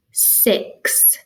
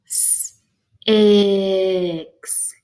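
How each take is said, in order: First: Said in the usual way. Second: S hissed alone, then a long stretched ix; said slow. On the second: Shown as a demonstration. Teacher helping find the middle sound, said slow. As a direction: stretch out S, ix in two parts. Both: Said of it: "You can say it slow like that".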